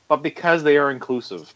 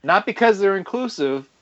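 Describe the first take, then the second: First: "they" hit hardest, with "are" said in full; stress on they. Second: "because" hit hardest, falling at the end; stress on because. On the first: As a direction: punch "they are", not "because". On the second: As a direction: lean on "because", not on "they're". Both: Shown as a demonstration.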